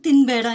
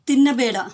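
First: It is said fast, with a syllable dropped. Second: Every syllable is said slowly and fully.

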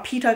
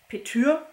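First: The second vowel is a plain e sound. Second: The second vowel is a rounded ü sound. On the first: "Ich habe immer Peter gelesen" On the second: "Kann auch sein, dass man es Petür ausspricht"

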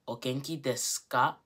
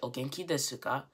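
First: The u in desu is dropped, leaving s. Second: The u in desu is fully pronounced. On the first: The speaker calls it right. "We say o genki desu ka" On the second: The speaker calls it wrong. "we don't say o genki desu ka"

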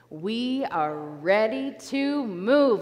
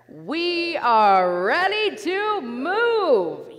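First: It is said at normal volume. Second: It is said loudly.

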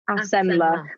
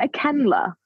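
First: The middle consonant is an S sound. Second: The middle consonant is a K sound. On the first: The speaker calls it right. "it's pronounced Acenla" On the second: The speaker calls it wrong. "We get so many people like, is it a Kenla? And we're like, no"

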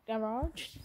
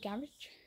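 First: The word is said with an American pronunciation. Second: The word is said with a British pronunciation. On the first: "Not garage, like the US" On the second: "in the UK we say garage"

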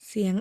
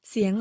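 No difference in how they are said.

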